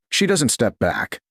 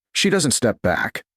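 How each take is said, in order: Both takes have the same delivery.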